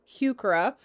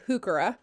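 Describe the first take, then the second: First: The first syllable has a clear 'hue' sound. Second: The first syllable drops the 'hue' sound. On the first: "the correct pronunciation is heuchera" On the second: "we don't really say the hue part"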